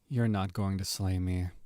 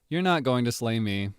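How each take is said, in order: First: It sounds weary and low in energy. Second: It sounds lively, upbeat and snarky. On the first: "Now I'm an actual tired anti-hero" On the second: "a little bit more upbeat, kind of snarky"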